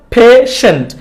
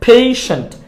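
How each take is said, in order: First: পেশেন্ট as "phe-shent"; no i glide in পেশেন্ট; wrong pronunciation. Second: পেশেন্ট as "phei-shent"; correct pronunciation. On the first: Teacher summing up the mistake, পেশেন্ট with plain e. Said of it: "ভুলটা আমরা শিখলাম". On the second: Teacher summing up the correction, পেশেন্ট with ei. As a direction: glide e to i in পেশেন্ট. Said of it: "আর সঠিকটা হচ্ছে". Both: Shown as a demonstration.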